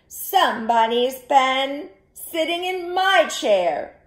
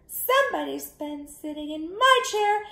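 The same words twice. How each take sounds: First: It is said in a medium-sized voice. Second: It is said in a tiny, small voice. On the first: The middle-sized bear is speaking. "in her medium-sized voice" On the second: The smallest bear is speaking. "in his wee little voice"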